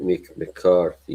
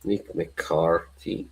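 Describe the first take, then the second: First: Said in the usual way. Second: Slow, soft MICK MCCARTHY in mock Irish; Irish accent. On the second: Shown as a demonstration. Relishing the manager's name, slow mock Irish.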